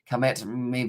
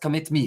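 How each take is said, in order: First: It is said in the speaker's ordinary accent. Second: It is said in a South African accent.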